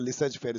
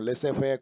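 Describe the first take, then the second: First: A z sound ends the first word. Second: The first word ends without a z sound. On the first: The speaker calls it wrong. "लेसेज फेयर का प्रोनाउंसिएशन वो नहीं है जो मैं बोल रहा हूँ" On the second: The speaker calls it right. "लेसे फेयर कुछ ऐसा होगा, क्योंकि ये फ्रेंच है, इसमें पूरा नहीं बोला जाता है"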